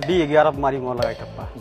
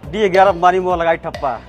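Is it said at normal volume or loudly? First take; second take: normal; loudly. First: It is said at normal volume. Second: It is said loudly.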